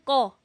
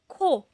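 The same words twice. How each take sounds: First: The k is said without a puff of air. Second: The k is said with a puff of air. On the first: The speaker calls it wrong. "Hindi yan ko" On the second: The speaker calls it right. "May hangin po. Aspirated consonant"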